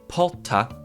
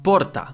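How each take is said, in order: First: The R is an H sound. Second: The R is a rolled trill. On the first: "like with the H" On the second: "the way I pronounced that was with a rolled R"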